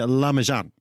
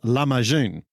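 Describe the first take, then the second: First: It is said the New Zealand English way. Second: It is said the Turkish way, ending in 'joon'. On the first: "I'm a Kiwi, uh, so we tend to say lahmacun" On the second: "The Turkish version of this word is pronounced lahmacun"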